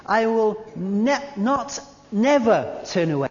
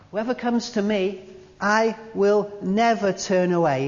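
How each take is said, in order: First: Not and never each hit hard; double negative stressed. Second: Said in the usual way. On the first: Shown as a demonstration. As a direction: land not, then never. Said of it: "that's a double negative".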